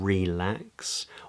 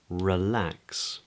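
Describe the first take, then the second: First: The first vowel is said as a full vowel. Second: The first vowel is reduced to schwa. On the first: The speaker calls it wrong. "It's not relax" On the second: The speaker calls it right. "the same for relax"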